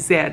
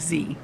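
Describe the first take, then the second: First: The letter is said the Canadian way, zed. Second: The letter is said the American way, zee.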